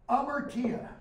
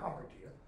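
First: The word begins without an h sound. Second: The word begins with an h sound. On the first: "Notice I didn't pronounce the Hamar" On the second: "It's okay if you say Hamartya"

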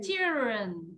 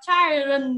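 First: The first vowel sounds like in 'chill'. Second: The first vowel sounds like in 'child'. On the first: The speaker calls it right. "It's children" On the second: The speaker calls it wrong. "Nhiều đứa trẻ đọc là children. Đúng không? It's not"

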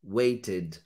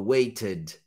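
First: It is said in a British English accent. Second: It is said in a British English accent.

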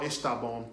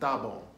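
First: The first word is said in full. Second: The first word is shortened to one syllable. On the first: "Now está bom" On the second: "they shorten expressions"

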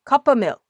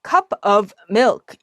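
First: The f in 'of' is nearly dropped. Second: The f in 'of' is clearly pronounced. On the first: The speaker calls it right. "of의 f 발음을 거의 안 하고요" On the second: The speaker calls it wrong. "이렇게 하면 되게 발음하기가 힘들잖아요"

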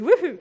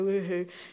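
First: The word is said loudly with lively energy. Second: The word is said flatly with little energy. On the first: The speaker calls it right. "It has to be woohoo" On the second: The speaker calls it wrong. "You can't go woohoo"

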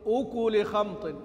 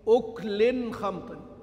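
First: The first word ends without an added n sound. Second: The first word ends with an added n sound. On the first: The first word is joined in possession to the next. "بيقرأ بالإضافة وليس بالتنوين" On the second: The first word is an indefinite noun with nunation. "يوافقون ابن كثير ونافعا من جهة إيش؟ التنوين"

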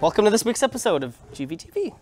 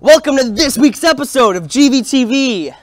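First: It is said flatly, without much energy. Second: It is said with lively enthusiasm.

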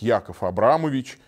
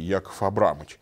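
First: The patronymic is said with every syllable. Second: The patronymic is said with syllables dropped. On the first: The speaker calls it right. "Полное произношение распространяется" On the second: The speaker calls it wrong. "Нельзя сказать"

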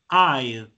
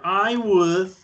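First: Said as one contracted syllable. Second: Said as two full separate words. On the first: "So the pronunciation is I'd" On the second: "I would equals to I'd"

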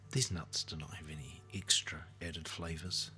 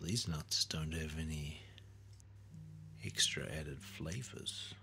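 First: It is said in a punishing, reproachful way. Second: It is said in a tempting, enticing way. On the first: The speaker wants to punish the listener. "To punish" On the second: The speaker wants to tempt the listener. "To tempt"

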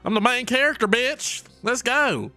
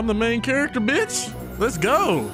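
First: It is said in a country accent. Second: It is said in a plain everyday accent.

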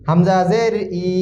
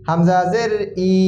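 Both takes have the same delivery.

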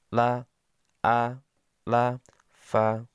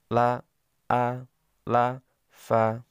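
No difference in how they are said.

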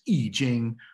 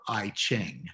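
First: The name is said with its Chinese pronunciation. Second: The name is said with its common English pronunciation. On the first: "The Chinese name for changes is I Ching" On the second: "is often pronounced as if it were I Ching"

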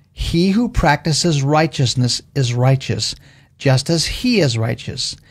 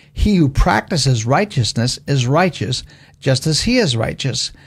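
No difference in how they are said.

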